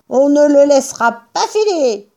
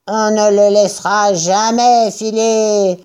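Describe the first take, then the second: First: High-pitched character vow; determined farmer. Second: Declaring. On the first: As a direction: state the resolve in a high voice. Bean jure de tenir bon. (résolution, voix haut perchée) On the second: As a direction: echo the vow in a second farmer's voice. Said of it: "déclara Buns". (déclaration traînante de personnage) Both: A narrator's reading.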